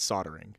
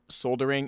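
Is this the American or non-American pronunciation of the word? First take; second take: American; non-American. First: It is said with an American pronunciation. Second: It is said with a non-American pronunciation. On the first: "In America, it's soldering" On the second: "It's pronounced other places of the world soldering"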